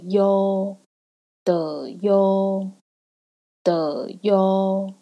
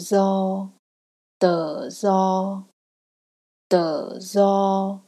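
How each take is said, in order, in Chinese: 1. 'do' 这个字开头是 y 音。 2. 'do' 这个字开头是 z 音。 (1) "南粤呢则会发的优" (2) "在北粤音呢，他们会念的zo"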